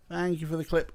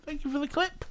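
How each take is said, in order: First: Said in the usual way. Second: Very high falsetto thank-you; squeaky thanks. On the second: Pretend. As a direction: put on a tiny high voice. Thanks for clip, then repeats plainly.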